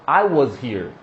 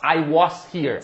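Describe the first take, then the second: First: "was" as WUHZ, low and measured; nicer "was". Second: "was" with open O and S, as in "wos"; common learner "was". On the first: Teacher modelling the nicer version, "was" as "wuhz". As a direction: buzz the Z in "was", short UH. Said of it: "som de z". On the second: Teacher showing the common learner version, "was" as "wos". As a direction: say "was" as WOS, hissed ending. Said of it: "a tendência é você falar was". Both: Shown as a demonstration.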